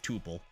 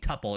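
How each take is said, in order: First: The first syllable does not sound like Tupperware. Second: The first syllable sounds like Tupperware. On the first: "I say tuple" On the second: "I hate saying tuple. It sounds like Tupperware"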